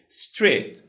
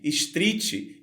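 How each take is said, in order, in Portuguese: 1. A consoante final termina o som sem vogal. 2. Uma vogal extra vem depois da consoante final. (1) "onde deveria ser" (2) "a gente tende a colocar um som de vogal onde ele não existe"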